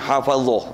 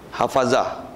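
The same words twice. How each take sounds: First: The middle consonant is an emphatic Arabic sound. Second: The middle consonant is a plain z sound. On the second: "Kalau sebutan Melayu disebut dengan malaikat hafazah"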